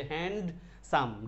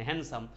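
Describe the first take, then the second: First: handsome slowly broken as HAND, SAM; split in two. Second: Said in the usual way. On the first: Shown as a demonstration. Teacher showing the two syllables of handsome, broken apart slowly. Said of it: "মানে দুই ভাঙ্গেই পড়তো". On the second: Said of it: "ডির উচ্চারণ না এখানে".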